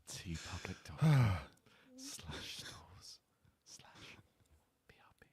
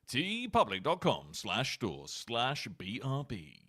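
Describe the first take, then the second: First: It is said muffled, while biting a finger. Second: It is said clearly in his normal voice.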